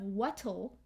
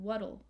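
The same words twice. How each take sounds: First: The middle consonant is a crisp T sound. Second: The middle consonant is a soft D-like flap. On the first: The speaker calls it wrong. "instead of what'll with a T" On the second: The speaker calls it right. "we have more of a D sound"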